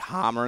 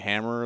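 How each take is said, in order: First: The vowel is dragged out long. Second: The vowel is said short and plain. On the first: "drag like hammer" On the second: "instead of hammer"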